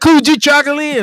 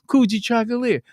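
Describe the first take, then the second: First: The word is said at a louder volume. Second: The word is said at a quieter volume.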